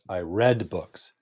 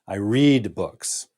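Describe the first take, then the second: First: The word read rhymes with bed. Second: The word read rhymes with need. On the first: The reading happened in the past. "past tense is I read books" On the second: The reading happens regularly now. "when we pronounce simple present, we pronounce it read"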